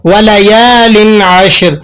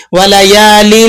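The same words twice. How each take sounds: First: وَلَيَالٍ عَشْرٍ with a clean tanween and no nasal hum; correct, no ghunnah. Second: وَلَيَالٍ with a wrong nasal ghunnah hum at the end; wrong nasalization. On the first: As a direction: show the right way, slow and clean. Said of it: "ہم یہاں غنہ ادا نہیں کریں گے". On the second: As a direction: demo the mistake, humming the tanween of وَلَيَالٍ. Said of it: "اس طرح سے نہیں پڑھیں گے". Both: Shown as a demonstration.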